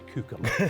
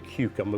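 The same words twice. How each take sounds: First: It is said in a Norfolk accent. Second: It is said in a standard English accent. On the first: This is how locals say it. "we say cucumber" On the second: This is how others say it. "we don't say cucumber"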